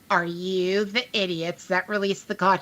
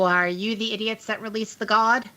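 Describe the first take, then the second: First: The question is spoken more slowly. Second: The question is spoken at a normal pace.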